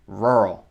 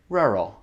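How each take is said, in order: First: It is said with an American accent, strong R. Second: It is said with a British accent, softer R. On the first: "Avec mon accent américain" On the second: "Avec l'accent anglais"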